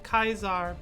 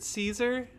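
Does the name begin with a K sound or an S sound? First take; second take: K sound; S sound. First: The name begins with a hard K sound. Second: The name begins with a soft S sound. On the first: This is how the group's own members say it. "the Legion's Legion pronounces it Kaisar" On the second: This is how the group's critics say it. "a lot of the people who think the Legion are full of shit will pronounce it Caesar"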